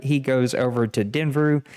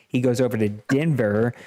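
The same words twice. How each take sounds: First: "Denver" garbled as "Denvru", with an extra r-sound at the end; Denver slip. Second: Fix the slip, say "Denver" clean and normal; corrected Denver. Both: Real, not acted. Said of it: "mix Denver and Denver up".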